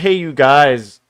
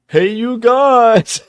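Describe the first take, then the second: First: It is said in a normal voice. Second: It is said in a Sloth impression voice.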